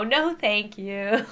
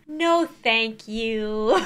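First: Slow, drawn-out dismissive refusal; slow no thank you. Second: Drawn-out, very slow refusal; slow no thank you. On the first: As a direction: draw it out with a rising end. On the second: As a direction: stretch it out slowly. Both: Acted. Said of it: "Scary TikToks that make you go".

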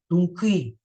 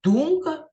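First: "думки" with the stress moved to КИ; stress on last syllable. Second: "Думка" punched high and loud on ДУМ; stress on first syllable. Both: Shown as a demonstration. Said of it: "Він рухомий".

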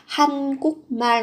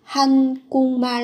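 First: Said in the usual way. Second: "Hàn Quốc mal" run together as han-gung-mal; biến âm. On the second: Shown as a demonstration. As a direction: turn the k in "Quốc" into ng before "mal". (đọc "Hàn Quốc mal" thành han-gung-mal, k biến thành ng) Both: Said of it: "các bạn sẽ phát âm là".

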